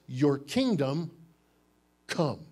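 There is a pause between 'kingdom' and 'come'.

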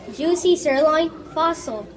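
There is a pause just before fossil. The speaker calls it right.

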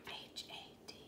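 It is said in a whisper.

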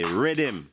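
The word has a Trinidadian or Guyanese pronunciation. This is how the speaker's community says it. "Because I'm Trinidadian born, Guyanese raised. ... we say rhythm"

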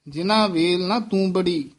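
The last word is split into two separate parts. The speaker calls it wrong. "ਇਸ ਤਰ੍ਹਾਂ ਨਹੀਂ ਬੋਲਣਾ।"

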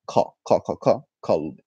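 The word begins with a k sound. This is the standard Arabic form. "In standard, the word for heart is kalb"

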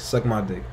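The three words run together as one word. The speaker calls it right. "One syllable, not three"

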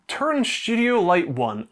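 It is said in an anglicised Scottish accent. "In my anglicised accent"

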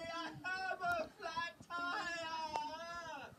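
It is said dramatically, with urgency.

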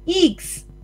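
It is said in a New Zealand accent.

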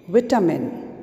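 It is said in a British accent.

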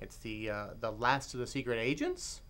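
The voice rises at the end like a question. The title is posed as a question. The speaker calls it right. "There's a question mark at the end"

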